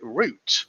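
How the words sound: It is said with a non-American pronunciation. The speaker calls it right. "We call it route"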